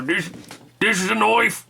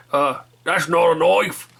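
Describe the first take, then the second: First: Put-on Australian accent, knife said as noife and pitched higher; a triumphant Aussie reveal with noife. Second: Slow, casual Australian drawl; a lightly done Aussie knife-line impression; Australian accent. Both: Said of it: "I can kinda do that Australian accent".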